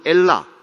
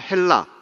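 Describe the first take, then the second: First: The word begins directly with a vowel. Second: The word begins with an h sound.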